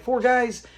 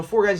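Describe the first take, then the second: First: Retold higher-pitched questioning echo; doubtful echo. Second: Said in the usual way. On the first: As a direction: repeat it back in mild disbelief. Son echoes the claim in doubt.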